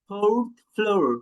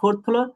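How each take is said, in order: First: The words begin with an f sound. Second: The words begin with a ph sound. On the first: The speaker calls it right. "fourth কি হবে fourth floor" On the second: The speaker calls it wrong. "আমরা বলি না ফোর্থ ফ্লোর"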